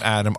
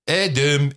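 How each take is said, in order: First: The name is said with an English pronunciation. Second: The name is said with a Dutch pronunciation. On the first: "not Adam" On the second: "the Dutch would pronounce my name"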